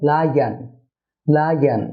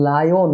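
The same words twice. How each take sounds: First: "লায়ন" as lai-an, weak second vowel; correct pronunciation. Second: "লায়ন" as lai-on, full O at the end; common mispronunciation. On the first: Teacher models the correction, "লায়ন" said lai-an. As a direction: say "লায়ন" ending in "an", falling. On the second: Teacher shows viewers the mistake, "লায়ন" said lai-on. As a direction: say "লায়ন" with a clear "on". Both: Shown as a demonstration. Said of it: "না হয়ে হবে".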